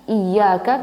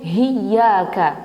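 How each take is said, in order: First: The word begins directly with a vowel. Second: The word begins with an h sound. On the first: The speaker calls it right. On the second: The speaker calls it wrong.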